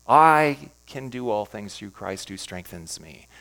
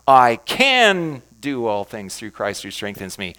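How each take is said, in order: First: The word "I" is stressed. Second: The word "can" is stressed.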